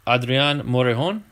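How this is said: The name is said with a Spanish pronunciation.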